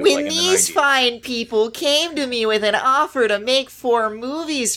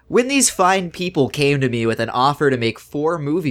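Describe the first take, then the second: First: It is read in a put-on impersonation voice. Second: It is read in the speaker's own normal voice.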